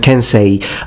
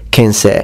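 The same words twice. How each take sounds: First: The final vowel is a full two-part sound. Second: The final vowel is shortened, its last part dropped. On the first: "It's pronounced Kensei" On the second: "the last sound e often is dropped by natives"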